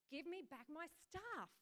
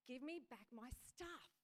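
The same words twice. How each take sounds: First: Slow, higher, insistent demand; determined demand. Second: Slow, firm demand as Jesus; annoyed demand. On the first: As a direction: press it home with determination. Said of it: "with determination in his eyes". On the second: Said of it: "He looked annoyed". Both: Acted.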